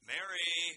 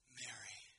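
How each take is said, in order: First: It is said in a teasing, sarcastic tone. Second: It is said in a gentle, compassionate tone.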